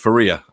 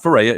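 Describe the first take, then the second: First: The stressed middle vowel sounds like 'ee'. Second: The stressed middle vowel sounds like 'ay'. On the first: The speaker calls it right. "It's Faria" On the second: The speaker calls it wrong. "It's it's it's not Ferreira"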